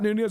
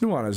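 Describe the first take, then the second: First: The name is said as the usual mispronunciation. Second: The name is said the way its owner says it. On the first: This is how people usually say it. The speaker calls it wrong. "it's not Nunez" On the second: This is how the owner says it. The speaker calls it right. "it's Nuanez"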